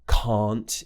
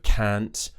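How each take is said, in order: First: It is said in an RP British accent. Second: It is said in a non-RP accent. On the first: "this very R P style of speaking by saying can't" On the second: "instead of"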